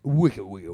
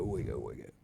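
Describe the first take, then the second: First: Louder chanted wicked, wicked; chanted, hyped-up repeat; emphatic chant. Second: Much lower, softer wicked, wicked; mock sinister echo; deep spooky wicked. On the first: Pretend. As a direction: chant the word like a slogan. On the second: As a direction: drop into a deep ominous murmur. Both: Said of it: "I bet you felt wicked out there".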